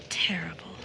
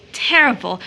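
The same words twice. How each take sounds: First: Breathless whisper of terrible; whispered word. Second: Said in the usual way. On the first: Acted. Rachel whispers the word to herself in grief, a hushed whisper. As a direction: let "Terrible" out as a toneless whisper. Grieving woman repeats word.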